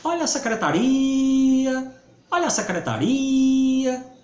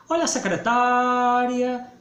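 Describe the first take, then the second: First: "secretaria" with RI held long and high; vendor's call stressing RIA. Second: "secretária" with TÁ held long and high; vendor's call stressing TÁ. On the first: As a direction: hawk it, stretching the RI of "secretaria". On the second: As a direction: hawk it, stretching the TÁ of "secretária". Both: Shown as a demonstration. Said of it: "O quebra-queixo iria dizer como?".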